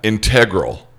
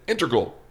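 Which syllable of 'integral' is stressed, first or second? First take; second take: second; first. First: The stress is on the second syllable. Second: The stress is on the first syllable. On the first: The speaker calls it wrong. "one of them keeps saying integral" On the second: The speaker calls it right. "first syllable accent"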